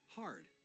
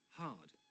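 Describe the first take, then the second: First: The word has an audible R sound. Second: The word has no audible R sound. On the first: "Americans might pronounce it hard with an R sound" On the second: "in R P we don't"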